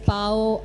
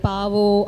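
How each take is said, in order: First: The vowels run together with no v sound. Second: A v sound is inserted between the vowels. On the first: The speaker calls it right. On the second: The speaker calls it wrong. "the diction was a little bit of a problem. Like"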